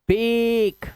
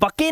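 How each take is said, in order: First: Long 'ay' vowel, with the final e silent. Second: Short 'uh' vowel, with the final e voiced. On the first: The speaker calls it right. "ए की मात्रा" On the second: The speaker calls it wrong. "इसे बके नहीं पढ़ना है"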